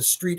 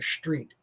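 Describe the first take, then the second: First: The word begins with a plain 'st' sound. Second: The word begins with an 'sht' sound. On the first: "you don't walk down the street anymore" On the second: "everybody has to pronounce S T. Words that begin with S T as S H T lately"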